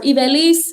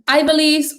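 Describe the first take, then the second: First: The name is pronounced with Spanish sounds. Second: The name is pronounced with English sounds.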